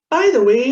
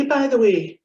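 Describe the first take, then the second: First: "By the way" said rising, like a question. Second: "by the way" said falling, final and flat. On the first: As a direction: ask it: "By the way?". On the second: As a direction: close it down: "by the way.". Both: Shown as a demonstration. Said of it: "the same phrase ... means two different things".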